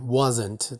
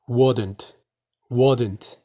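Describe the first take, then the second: First: Said in the usual way. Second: "wouldn't" said in a Texas accent, the "s" turned to a "d". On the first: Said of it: "平常我们就是念wasn't". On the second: Shown as a demonstration. Teacher demos the Texas way to say "wouldn't" in a Texas accent. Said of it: "德州可能会念".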